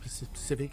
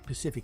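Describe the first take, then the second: First: The word begins with an s sound. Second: The word begins without an s sound. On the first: The speaker calls it right. "instead of Pacific" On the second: The speaker calls it wrong. "when you say Pacific instead of"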